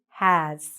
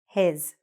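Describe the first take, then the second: First: The vowel is an open 'a' sound. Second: The vowel is a closer 'e' sound. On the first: The speaker calls it right. "We want to open our mouths" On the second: The speaker calls it wrong. "take this short A sound, a, a, and say e"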